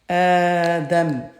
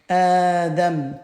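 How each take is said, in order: No difference in how they are said.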